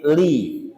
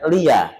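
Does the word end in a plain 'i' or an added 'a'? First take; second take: plain i; added a. First: The word ends on a plain 'i' sound. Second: The word ends with an added 'a' sound. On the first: The speaker calls it right. "tapi li" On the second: The speaker calls it wrong. "tidak lia"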